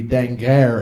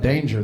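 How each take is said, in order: First: The name is said with French sounds. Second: The name is said with English sounds. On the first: The speaker calls it right. "It's supposed to be Danger, and it's Old French" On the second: The speaker calls it wrong. "That's mispronounced"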